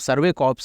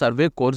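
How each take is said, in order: First: The word corps ends with a 'ps' sound. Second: The word corps ends with an 'rs' sound. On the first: The speaker calls it right. "Survey కాప్స్ అని చెప్పి అంటారు" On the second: The speaker calls it wrong. "వీళ్ళు సర్వే కోర్స్ అంటున్నారు"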